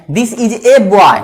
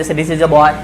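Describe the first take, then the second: First: "a" said as a full "ए", drawn out very slowly and leaned on; stressed article. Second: Put-on "a" as a quick schwa "अ", unstressed and run into boy; "this is a boy" with "a" reduced to a light "अ"; weak article. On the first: Teacher showing students the emphatic "ए" when stressing one boy. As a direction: stretch "this is a boy" and punch "a" as "ए". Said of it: "जोड़ देकर हमको बोलना होता है". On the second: Teacher showing students the everyday weak "a" in flowing speech. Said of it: "तो हम लोग यहाँ पर अ बोलेंगे". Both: Shown as a demonstration.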